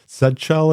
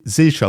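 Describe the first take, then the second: First: The letter Z has a British pronunciation. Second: The letter Z has a non-British pronunciation. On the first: "in the U K" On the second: "is that how you pronounce it?"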